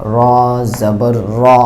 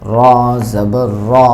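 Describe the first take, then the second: No difference in how they are said.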